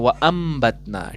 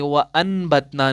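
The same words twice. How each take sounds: First: "व अम्बतना" with the n turned into a nasal m before b, drawn out slowly; iqlab with nasal m. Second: "व अनबतना" with a clear n before the b, drawn out slowly; wrong reading. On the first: Teacher shows students correct iqlab, slow nasal "व अम्बतना". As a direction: hum the m in "व अम्बतना" through the nose. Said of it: "यहाँ पर आप पढ़ते हैं". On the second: Teacher shows students the wrong reading, slow "व अनबतना" with n. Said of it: "नहीं पढ़ते हैं". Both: Shown as a demonstration.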